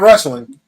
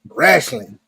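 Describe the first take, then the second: First: It is said in a standard accent. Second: It is said in a country redneck accent.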